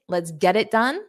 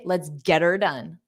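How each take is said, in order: First: The word 'it' is said fully with a t. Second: The word 'it' is reduced to 'er'. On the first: "instead of saying get it" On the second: "native speakers commonly say, let's get her done"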